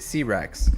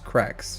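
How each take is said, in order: First: The letter C and Rex are said separately. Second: The name is blended into one single syllable. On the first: "when you read it" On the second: "it's Crex"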